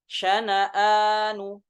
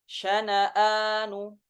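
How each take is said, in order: The two takes are said the same way.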